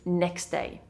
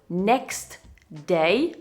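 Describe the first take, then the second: First: The t at the end of 'next' is dropped. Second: The t at the end of 'next' is pronounced.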